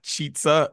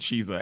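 First: The word is pronounced in an Italian-sounding way. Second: The word is pronounced in a plain English way. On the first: It suggests the food is Italian. The speaker calls it wrong. "Cheetza makes it sound like it's Italian or something" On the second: It is a fast-food item, not Italian food. The speaker calls it right. "It's definitely Cheetza"

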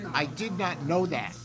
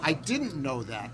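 First: Did not is said as two full words. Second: Did not is contracted to didn't. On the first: It sounds emphatic and funny. "He would not contract it" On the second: It sounds ordinary. "But he wouldn't say"

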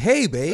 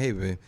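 First: The greeting sounds warm and friendly. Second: The greeting sounds flat and unfriendly. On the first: The speaker is not upset. The speaker calls it right. "I fix my intonation" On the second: The speaker seems upset. The speaker calls it wrong. "instead of me saying"

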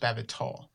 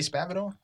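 First: The T is crisp and over-enunciated. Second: The T is soft and relaxed. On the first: "He says Spavital" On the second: "We can't just say Spavital?"

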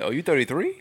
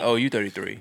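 First: It sounds surprised, like a disbelieving question. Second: It sounds matter-of-fact, like a flat statement.

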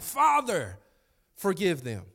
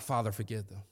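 First: It is said intensely, like a pained prayer. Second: It is said calmly and casually.

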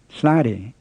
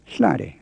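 First: The first syllable has a plain high tone. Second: The first syllable is short, tight and creaky. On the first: The speaker calls it wrong. "It's not hlade" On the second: The speaker calls it right. "but hlade. We call it the creaky tone"

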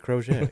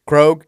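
First: The name is said with a put-on Italian flourish. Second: The name is said plainly, as one syllable. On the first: "this is the Italian pronunciation" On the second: "We always say it Krogue"

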